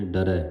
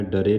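First: ਡਰੈ ending in an open ai like ɛ; correct dulavan vowel. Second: ਡਰੇ with a plain final e, the wrong way; wrong reading. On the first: Teacher repeating the right ਡਰੈ for the sangat, open ai. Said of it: "ਡਰੈ ਪੜ੍ਹਨਾ ਹੈ". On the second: Teacher showing the sangat the wrong ਡਰੇ, final e. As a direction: say ਡਰੇ ending in a short e. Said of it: "ਡਰੇ ਨਹੀਂ ਪੜ੍ਹਨਾ". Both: Shown as a demonstration.

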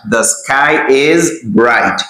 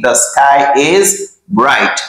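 First: Slow repeat. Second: Slow, careful teacher model; slow model sentence. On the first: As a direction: repeat "The sky is bright" slowly for learners to copy. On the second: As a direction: say "the sky is bright" slowly and clearly for learners. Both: Shown as a demonstration. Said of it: "We say".

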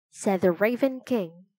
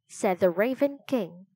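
Both takes have the same delivery.

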